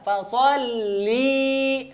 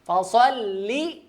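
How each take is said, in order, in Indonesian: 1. Vokal akhirnya panjang, ditarik. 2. Vokal akhirnya pendek. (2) "tidak panjang"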